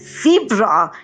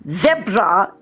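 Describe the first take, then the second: First: It is said in an American accent. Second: It is said in a British accent. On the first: "zebra in American English" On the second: "zebra in British English"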